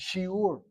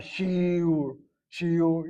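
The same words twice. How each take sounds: First: Shiur with the stress on the second syllable, shi-UR. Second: Shiur with the stress on the first syllable, SHI-ur, the wrong way. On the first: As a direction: land on the ur of shiur. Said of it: "We hit the second syllable". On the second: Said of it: "You can't say it that way". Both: Shown as a demonstration.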